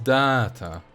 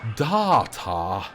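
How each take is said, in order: First: It is said in the speaker's ordinary accent. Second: It is said in a posh English accent.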